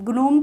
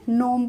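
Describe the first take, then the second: First: The word begins with a hard g sound. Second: The word begins with an n sound. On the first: The speaker calls it wrong. "ग्नोम तो नहीं पढ़ेंगे" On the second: The speaker calls it right. "नोम पढ़ेंगे"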